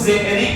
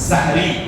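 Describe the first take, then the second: First: The first syllable has an 'e'-like vowel. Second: The first syllable has an open 'a' vowel. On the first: The speaker calls it wrong. "कुछ लोग सेहरी कहते हैं जो कि गलत है" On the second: The speaker calls it right. "सीन के जबर के साथ है सहरी"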